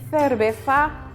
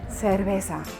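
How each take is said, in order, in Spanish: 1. La z suena como la th del inglés. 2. La z suena como una s normal. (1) "tenemos una pronunciación en Madrid" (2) "en Canarias y en América, más light"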